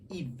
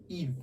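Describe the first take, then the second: First: The ending is said with an i vowel. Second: The ending is said with an i vowel.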